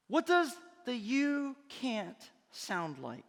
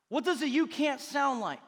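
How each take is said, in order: First: Dropping into a dark, discouraging tone; voice of doubt. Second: Said in the usual way. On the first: Shown as a demonstration. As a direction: let it sound like the voice that says you can't.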